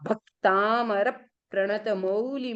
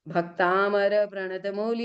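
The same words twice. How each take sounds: First: The syllable after the half consonant is pressed. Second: The syllable after the half consonant is weak. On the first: The speaker calls it right. "आपका क आधा है तो आगे वाले पर pressure देना।" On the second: The speaker calls it wrong. "ऐसा बोल दिया तो आपका उच्चारण क्या हो जाएगा? अशुद्ध।"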